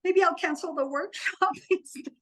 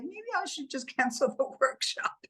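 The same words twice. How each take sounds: First: Tempted half-joke. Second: Higher, laughing mock suggestion to cancel; kidding with mom. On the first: Retold or imitated. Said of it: "there was a moment where". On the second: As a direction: joke to mom about cancelling, laughing mid-line. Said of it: "I was just kidding with my mom".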